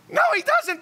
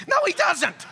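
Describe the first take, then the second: First: "No, he doesn't" jumps much higher in mock protest; emphatic high. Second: Said in the usual way. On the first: Real, not acted. Preacher insists to the church, squeaky high mock protest. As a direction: pitch it way up, half laughing. Correcting himself about the rapper.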